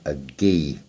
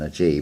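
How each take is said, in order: First: The letter begins with a hard g sound. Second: The letter begins with a soft j sound. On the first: The speaker calls it right. "It should actually be a hard sound G" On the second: The speaker calls it wrong. "we pronounce it as if it is spelt J E G"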